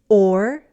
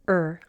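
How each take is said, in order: First: The vowel is a full sound before r. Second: The vowel is reduced to er.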